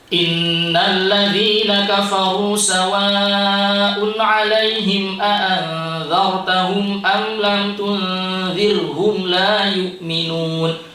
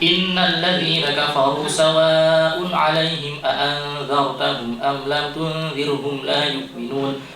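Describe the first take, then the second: First: It is recited at a moderate, middle speed. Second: It is recited as fast as possible. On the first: "tadwir tengah-tengah, tidak terlalu cepat, tidak terlalu lambat" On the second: "hadir tempo yang paling cepat cepatnya"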